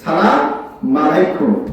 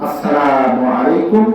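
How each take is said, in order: First: The greeting is clipped, with its opening syllables dropped. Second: The greeting is said in full, with every syllable. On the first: It wishes the other person death or ruin. The speaker calls it wrong. "আবার বলবেন না সালাম আলাইকুম" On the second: It wishes the other person peace. The speaker calls it right. "সাক্ষাৎ হলেই তাকে সালাম দেবেন"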